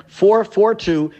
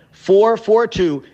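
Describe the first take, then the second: No difference in how they are said.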